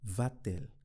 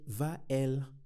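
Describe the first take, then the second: First: A t sound links the two vowels. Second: The vowels run together with no t sound. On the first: The speaker calls it right. "now I introduce the T to aid the pronunciation. Now I say va-t-elle" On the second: The speaker calls it wrong. "So I wouldn't say va-elle"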